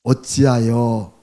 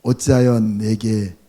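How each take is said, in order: First: 어찌하여 drawn out very slowly with a falling end; slow it right down and let 어찌하여 fall; slow stressed 어찌하여. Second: 어찌하여 stretched out slowly and falling; slow, weighty 어찌하여 before 내게; slow stressed 어찌하여. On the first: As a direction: dwell on each syllable of 어찌하여. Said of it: "어찌하여가 몇 번 나옵니까?". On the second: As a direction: lean on 어찌하여 for the third time. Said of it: "세 번째". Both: Shown as a demonstration.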